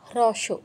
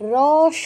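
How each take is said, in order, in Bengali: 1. এটি 'hroswo' হিসেবে বলা হয়, h সহ। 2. এটি সাধারণ 'ros' হিসেবে বলা হয়, h ছাড়া। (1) "তো রস বলবে না, হ্রস্ব" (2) "রস নয়"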